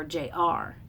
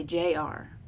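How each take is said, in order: First: "J R" with the weight on "R"; light "J", weighted "R" in "J R"; stress on second letter. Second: "J R" with the weight on "J"; stress on first letter. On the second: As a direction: hit the "J" in "J R", light "R". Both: Shown as a demonstration. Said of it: "equal emphasis, like J R. We don't say".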